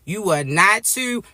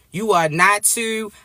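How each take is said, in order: Both takes have the same delivery.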